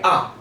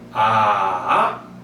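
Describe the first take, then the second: First: The syllable is short and light. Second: The pitch dips down, then rises. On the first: "경성은 그냥 가볍게 아 이렇게 처리하죠" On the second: "삼성은 떨어졌다가 이렇게 올라갑니다"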